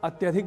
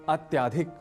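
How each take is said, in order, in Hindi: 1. 'ty' के बाद का स्वर छोटा है। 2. 'ty' के बाद का स्वर लंबा है। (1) "अत्यधिक बोलना हो" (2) "हम कहते हैं अत्याधिक"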